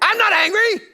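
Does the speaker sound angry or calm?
angry. It is said in a loud, angry voice. "You say"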